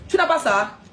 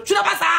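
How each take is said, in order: First: Said in the usual way. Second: High-pitched Cameroonian-accented French. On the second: Shown as a demonstration. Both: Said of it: "je vais prendre l'accent camerounais".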